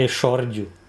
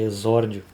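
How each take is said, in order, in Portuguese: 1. O x não é pronunciado como z. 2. O x é pronunciado como z. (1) "Que não é exórdio" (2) "o X tem som de Z"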